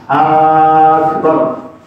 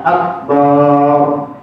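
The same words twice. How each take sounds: The two takes are said the same way.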